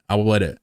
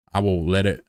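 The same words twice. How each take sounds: First: Said in the usual way. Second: Stretched drawling take; put-on drawl. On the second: Shown as a demonstration. Streamer playing with a drawl for chat, put-on drawl. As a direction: try the words in a put-on drawl. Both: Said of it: "until I'm talking like this".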